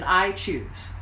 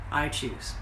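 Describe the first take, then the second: First: Said in the usual way. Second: I choose repeated much softer and lower; a quiet self-affirming echo; hushed repeat. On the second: Real, not acted. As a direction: let I choose fall to a soft inward echo. Repeated affirmation, bold then hushed.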